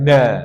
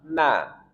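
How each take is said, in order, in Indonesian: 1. Na diucapkan berat dan tebal. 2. Na diucapkan ringan dan tipis. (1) "bukan na" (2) "na yang ringan"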